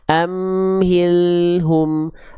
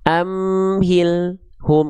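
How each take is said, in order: First: The L sound keeps flowing slightly. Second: The L sound is cut off abruptly. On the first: The speaker calls it right. "alnya harus terus ngalir sedikit" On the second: The speaker calls it wrong.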